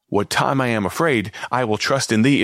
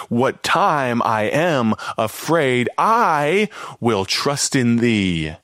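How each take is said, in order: First: Said in the usual way. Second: Each word drawn out slowly, weighty and deliberate; slow scripture reading. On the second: Shown as a demonstration. Preacher reads the psalm to listeners slowly and solemnly. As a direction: linger over the verse as if savouring it.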